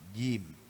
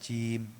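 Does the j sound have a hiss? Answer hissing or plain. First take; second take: plain; hissing. First: The j sound has no hiss. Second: The j sound is hissing. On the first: The speaker calls it right. "Jim itu nggak boleh desis" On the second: The speaker calls it wrong. "bukan jim"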